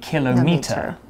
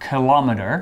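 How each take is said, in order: First: It is said with a British pronunciation. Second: It is said with an American pronunciation. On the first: "Whereas in British English, we say kilometer" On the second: "In American English, they say kilometer"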